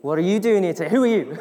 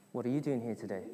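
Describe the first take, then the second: First: Raised, louder joking demand; hammed-up questioning, building louder; mock challenge. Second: Low, soft everyday question; understated, hushed morning question; spouse asking. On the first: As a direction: demand it of your spouse in jest. Joking as spouse repeating the question. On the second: Acted. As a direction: ask it quietly as a spouse would. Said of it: "your spouse would turn around and say".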